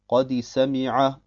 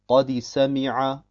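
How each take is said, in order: Both takes have the same delivery.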